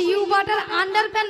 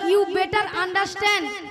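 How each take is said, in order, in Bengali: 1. এটা 'you butter under pant' এর মতো শোনাচ্ছে। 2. এটা 'you better understand' এর মতো শোনাচ্ছে। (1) "নয়" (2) "বলো"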